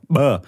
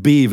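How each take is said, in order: First: B sucked inward as an implosive; B made by drawing air in. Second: B pushed out with air, explosive; B released outward. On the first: Showing a friend his inward implosive B. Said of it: "er macht zum Beispiel auch B". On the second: Showing a friend a normal outward B sound. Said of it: "so ein B würde ich jetzt so B". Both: Shown as a demonstration.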